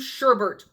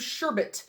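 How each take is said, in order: First: The second syllable has an R sound. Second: The second syllable has no R sound.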